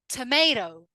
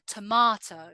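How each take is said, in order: First: It is said with an American accent. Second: It is said with a Southern English accent. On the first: "In the U S, they say something like tomato" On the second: "but we say R, tomato"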